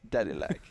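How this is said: It is said in a creepy, leering put-on voice. "he does it in the creeper voice"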